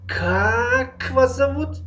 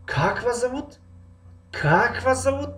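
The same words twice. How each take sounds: First: Slow and high, stretch Как вас at the start; slowly drawn Как вас, much higher; beginning drawn out, slow. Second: High, stretch the start of Как вас зовут; beginning drawn out. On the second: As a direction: lean on Как вас at the start, much higher. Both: Shown as a demonstration. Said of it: "аввали ҷумларо мекашем".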